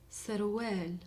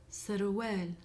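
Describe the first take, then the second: Both takes have the same delivery.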